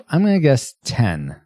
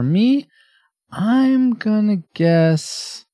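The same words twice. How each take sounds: First: Said in the usual way. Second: Slow, high, drawn-out tease; drawn-out suspense. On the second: Real, not acted. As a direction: stretch it out to build suspense. Building suspense before guessing.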